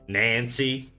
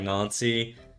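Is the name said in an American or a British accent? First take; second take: American; British. First: The name is said in an American accent. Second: The name is said in a British accent. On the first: "the American version of it" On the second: "you pronounce it more like"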